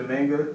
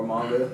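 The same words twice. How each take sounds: First: "manga" with a flat a, as in "man"; first way of saying manga. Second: "manga" with an open a, as in "father"; other way of saying manga. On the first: Guest retelling what manga readers wanted, saying "manga" as MANG-guh. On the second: Guest offering the alternative to co-hosts, "manga" as MAHN-guh. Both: Shown as a demonstration. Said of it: "however you say it".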